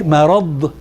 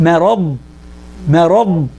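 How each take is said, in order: First: مرض with the final ض released into a puff of air; wrong way, air released. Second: مرض ending in a pressed ض with the air held, not released; right way, pressed dad. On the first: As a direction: let the air escape at the end of مرض, the wrong way. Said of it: "you don't wanna make مرض". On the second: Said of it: "It's مرض". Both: Shown as a demonstration.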